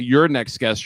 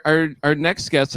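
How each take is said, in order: First: Your stressed as a correction. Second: Our stressed, said slowly. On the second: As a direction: lean on the word our. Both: Real, not acted. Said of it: "I should say, really".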